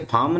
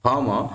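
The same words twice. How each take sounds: First: फार्म with the R rolled out clearly; wrong way with R. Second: फार्म as "faam", R dropped; silent R. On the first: Teacher shows students the wrong फार्म, R sounded. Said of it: "वैसे फार्म नहीं है ये". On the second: Teacher models correct फार्म for students, R silent. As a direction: say फार्म with a long A and no R. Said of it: "आर जो बोल रहे हैं बिल्कुल कम बोल रहे हैं". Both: Shown as a demonstration.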